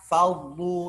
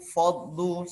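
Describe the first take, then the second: First: The first sound is kept light and thin. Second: The first sound is made heavy and thick. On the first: The speaker calls it right. "seharusnya fa faddu" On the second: The speaker calls it wrong. "fa-nya ikut tebal itu bagaimana? Itu yang salah"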